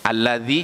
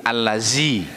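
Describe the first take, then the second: First: The middle consonant is a 'dh' sound. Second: The middle consonant is a 'z' sound. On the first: The speaker calls it right. "Zal jadi za" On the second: The speaker calls it wrong. "Zal jadi za. ... Hati-hati ya"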